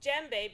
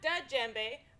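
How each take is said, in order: First: No separate D sound is said at the start. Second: A separate D sound is said at the start. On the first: The speaker calls it right. "because the D sound is silent" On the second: The speaker calls it wrong. "not da djembe"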